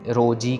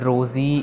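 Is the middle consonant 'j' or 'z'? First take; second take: j; z. First: The middle consonant is a 'j' sound. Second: The middle consonant is a 'z' sound. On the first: The speaker calls it right. "रोजी कहना है, ज नहीं कहना" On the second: The speaker calls it wrong. "रोज़ी नहीं कहना, जज्जे के पैर में बिंदी नहीं लगानी"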